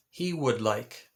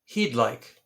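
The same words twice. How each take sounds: First: Slow, full "He would like" with every word given; full form. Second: "he'd like" run together as one quick contraction; short form. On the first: Teacher says the long form "He would like" for learners. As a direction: spell out "He would like" as separate words, slowly. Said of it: "Now that is typically abbreviated or shortened to". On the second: Teacher shows students the contraction "he'd like". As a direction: squeeze "he'd" into a single syllable. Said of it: "abbreviated or shortened to". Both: Shown as a demonstration.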